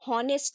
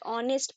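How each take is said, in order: First: The word starts with an audible h sound. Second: The word starts with a vowel, no h. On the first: The speaker calls it wrong. "हॉनेस्ट नहीं" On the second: The speaker calls it right. "ऑनेस्ट ऑनेस्ट पढ़ेंगे"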